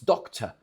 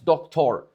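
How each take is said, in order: First: The second syllable is weak and light. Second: The second syllable is full and strong. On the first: The speaker calls it right. "t is really, really weak, it's light" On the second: The speaker calls it wrong. "It's not doctor"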